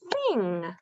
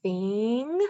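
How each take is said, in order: First: Said in the usual way. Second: "Thing" stretched out, sounds drawn together; slow blend. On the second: Shown as a demonstration. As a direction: blend it slowly for a child. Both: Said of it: "Let's put it together".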